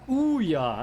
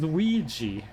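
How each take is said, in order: First: It is read the way it is spelled. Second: It is said like 'wee-jee'. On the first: The speaker calls it wrong. "It's spelled Ouya" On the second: The speaker calls it right. "it's pronounced Ouija"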